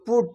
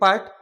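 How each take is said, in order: First: The vowel is a rounded 'oo' sound. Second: The vowel is an open 'uh' sound. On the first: The speaker calls it right. "যেমন পুট আছে তো পুট" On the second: The speaker calls it wrong. "এভাবে যদি আমরা পড়ি তাহলে ভুল হয়ে যাবে"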